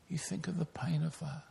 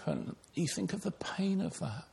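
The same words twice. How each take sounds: First: Hushed whisper, letting the pain sink in. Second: Said in the usual way. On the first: Shown as a demonstration. Preacher whispers to the congregation, picturing the pain. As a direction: drop to a breathy whisper.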